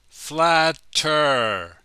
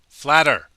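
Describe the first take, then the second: First: The word is said slowly and carefully. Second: The word is said quickly and naturally. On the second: "when we speak quickly"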